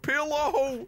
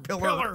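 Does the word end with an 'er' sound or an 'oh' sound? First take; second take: oh; er. First: The word ends with an 'oh' sound. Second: The word ends with an 'er' sound. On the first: This is how the speakers themselves say it. "I say pillow" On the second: This is how some relatives from the South say it. "some people in our family will pronounce the word pillow as either pilla or pillar"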